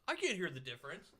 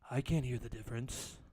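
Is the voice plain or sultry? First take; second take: plain; sultry. First: It is said in an ordinary, unsultry voice. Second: It is said in a low, sultry voice.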